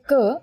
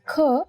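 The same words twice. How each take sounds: First: The consonant is said without a puff of air. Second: The consonant is said with a puff of air. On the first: "there is no forceful expulsion of air" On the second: "you will feel yourself expelling the air from your mouth"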